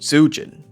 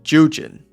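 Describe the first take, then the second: First: The name begins with a hard Z sound. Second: The name begins without a hard Z sound. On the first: The speaker calls it wrong. "I was saying it with the hard Z" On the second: The speaker calls it right. "the name's pronounced Jujin"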